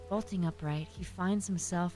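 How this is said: It is read in a soft, cozy voice.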